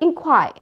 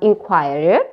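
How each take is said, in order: First: The stress is on the last syllable. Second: The stress is not on the last syllable. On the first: The speaker calls it right. "It is ended by the stress syllable" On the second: The speaker calls it wrong. "Not inquired, right?"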